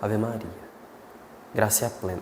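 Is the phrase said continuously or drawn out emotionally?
drawn out. It is drawn out with sighing, emotional pauses. The prayer becomes sentimental and invites distraction. The speaker calls it wrong. "é sentimentalismo na oração"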